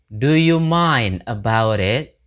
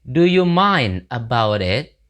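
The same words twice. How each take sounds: No difference in how they are said.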